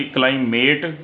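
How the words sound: It is said in a British accent, vowel long.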